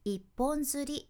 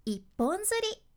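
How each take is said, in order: First: 一本釣り level and even; 一本釣り with no pitch rise; flat pitch. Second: 一本釣り lifted high and louder; high pitch peak. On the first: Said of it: "やなくって". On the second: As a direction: make 一本釣り jump up in pitch. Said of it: "しっかり音の高低差をつける". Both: Shown as a demonstration.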